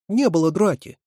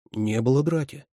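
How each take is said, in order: First: High, louder tearful denial; sobbing protest. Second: Steady, level denial; firm. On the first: Катерина denies there was a fight, sobbing. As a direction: protest as if near tears. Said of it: "всхлипнула Катерина". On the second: Ваня backs up Катерина's denial, firmly. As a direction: state it firmly, pitch held down. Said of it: "повторил Ваня твёрдо". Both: A narrator's reading.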